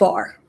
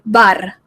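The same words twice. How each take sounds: First: The R is plain, not rolled. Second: The R is rolled. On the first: The speaker calls it wrong. "not bar" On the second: The speaker calls it right. "they say bar"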